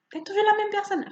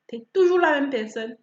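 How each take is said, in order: First: Higher, pointed repeat of "T'es toujours la même personne"; emphatic repeat. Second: Said in the usual way. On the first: Shown as a demonstration. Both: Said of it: "repeat with emphasis".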